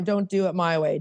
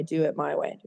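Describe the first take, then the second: First: Said in the usual way. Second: Soft, low ironic mutter under the breath; muttered aside. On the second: Shown as a demonstration. Sponsor mocking her own bossy attitude, muttered quietly. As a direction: toss it off quietly, half to yourself.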